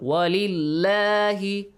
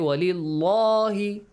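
First: The L in lahi is thin and light. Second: The L in lahi is full and heavy. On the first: The speaker calls it right. "lam has a kasra" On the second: The speaker calls it wrong. "We do not have to say"

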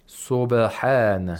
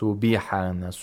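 First: The b is released quickly with no vowel after it. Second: A short i vowel follows the b. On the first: The speaker calls it right. "It's a neutral sound" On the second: The speaker calls it wrong. "We don't say"

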